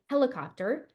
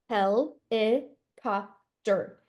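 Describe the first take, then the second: First: Said in the usual way. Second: "helicopter" said very slowly as hel-i-cop-ter; chopped into syllables. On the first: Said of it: "tap the first syllable". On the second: Shown as a demonstration. Teacher tapping syllables on the body, slow "helicopter". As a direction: tap four beats on "helicopter". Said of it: "tapping the syllables".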